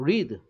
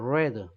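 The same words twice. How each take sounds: First: The word is said like 'reed'. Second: The word is said like 'red'. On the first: The action happens now. "현재는 현재도 read" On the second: The action happened in the past. "과거는 read예요"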